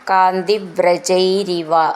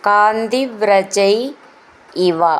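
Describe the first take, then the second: First: The two words are joined with an r sound. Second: The two words are said separately.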